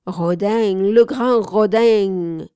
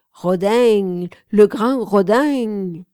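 First: Put-on southern accent. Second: Put-on Toulouse accent. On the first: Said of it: "La voix méridionale jetait toujours". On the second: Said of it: "avec un fort accent toulousain". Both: A narrator's reading.

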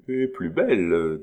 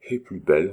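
First: Proud. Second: Said in the usual way. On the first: A narrator's reading. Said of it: "dit orgueilleusement Marguerite". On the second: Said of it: "répéta Hannibal".

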